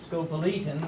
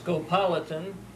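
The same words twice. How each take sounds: First: The stress is on the 'le' syllable. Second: The stress is on the 'pol' syllable. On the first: "I prefer to pronounce it scopolitan with the emphasis on the E" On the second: "with the emphasis on the pol"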